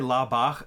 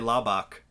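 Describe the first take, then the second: First: The ending has a German ch sound. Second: The ending has a hard k sound.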